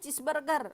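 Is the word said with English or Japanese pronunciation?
English. It is said with English-style sounds. The speaker calls it wrong. "Nggak boleh cheeseburger"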